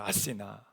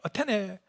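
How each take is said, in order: First: The name is said as a-si-na. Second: The name is said as a-te-ne. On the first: This is how Greeks and Europeans say the name. The speaker calls it right. "그리스나 유럽에서 하는 말은 아테네가 아니더라고요. 아시나라고요" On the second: This is the American form of the name. The speaker calls it wrong. "이 아테네라는 말이 미국식 발음입니다"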